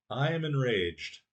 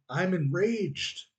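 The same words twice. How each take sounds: First: Said in the usual way. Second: Higher, slow hammed-up rage; mock enraged. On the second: Gamer hamming up rage at his teammate, mock enraged. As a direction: drag it out like a cartoon fury.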